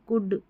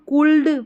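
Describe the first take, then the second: First: No L sound is heard before the D. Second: An L sound is heard before the D. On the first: The speaker calls it right. "हम पढ़ते हैं" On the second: The speaker calls it wrong. "नहीं पढ़ते"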